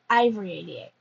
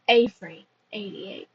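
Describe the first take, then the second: First: The name begins with an 'eye' sound. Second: The name begins with an 'ay' sound. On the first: The speaker calls it wrong. "I have been pr- mispronouncing this author's name" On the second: The speaker calls it right. "I think it's Avery eighty-eight, not Ivory"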